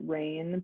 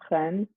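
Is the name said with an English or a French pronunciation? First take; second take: English; French. First: The name is said with an English pronunciation. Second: The name is said with a French pronunciation. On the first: "I I pronounce it rain" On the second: "in French it's reine"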